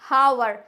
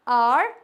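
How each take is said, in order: First: The word begins with an h sound. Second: The word begins with a vowel, no h. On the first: The speaker calls it wrong. "ये हावर नहीं होता है" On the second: The speaker calls it right. "It's ऑनर, आर"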